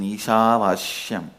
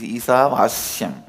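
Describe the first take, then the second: First: The syllable after 'Ishava' starts with an sh sound. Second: The syllable after 'Ishava' starts with an s sound. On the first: It keeps the way it was heard from the masters. "my pronunciation Ishavashyam is also Padabeta" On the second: It is the form the text actually has. "but actually it is Ishavashyam. Isha Vasyam is not Vashya"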